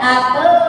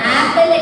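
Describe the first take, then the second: First: The word ends in a bare l sound. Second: The word ends with a vowel before the l. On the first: The speaker calls it right. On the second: The speaker calls it wrong.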